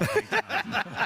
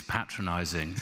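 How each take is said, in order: First: Patronizing with a long "pay" start; rejected pronunciation. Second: Patronizing with a short "pat" start; corrected pronunciation. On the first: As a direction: say patronizing as PAY-tronizing, higher. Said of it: "It's patronizing". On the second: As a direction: say patronizing slowly as PAT-ronizing. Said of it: "not patronizing". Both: Retold or imitated.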